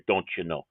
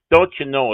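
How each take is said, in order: First: A light hint of a Minnesota accent; Minnesota phrase. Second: Said in the usual way. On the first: Shown as a demonstration. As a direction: drop the folksy Minnesota line softly. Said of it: "Don't you know is a Minnesota thing". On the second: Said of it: "is a Minnesota thing".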